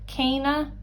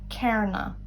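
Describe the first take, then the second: First: It is said in the standard dialect form. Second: It is said in the Ulster dialect form. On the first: "Sa caiideán agus canonsi eile" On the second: "ach sa canúid olú"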